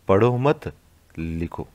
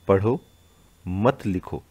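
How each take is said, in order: First: There is a pause right after 'mat'. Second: There is a pause right after 'padho'. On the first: Do not read, write. "पढ़ो मत, यानी आपको पढ़ना नहीं है, लिखो, आपको लिखना है।" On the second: Read, do not write. "पहला वाक्य क्या कह रहा है कि पढ़ो मत लिखो, यानी लिखना नहीं है, आपको पढ़ना है।"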